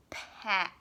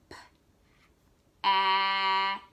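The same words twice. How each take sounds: First: Said in the usual way. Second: P-ack drawn out long and louder; teacher stretching pack to hear its sounds; slow stretched word. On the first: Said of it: "slowing down and stretching out the word". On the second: Shown as a demonstration. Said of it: "stretching out the word".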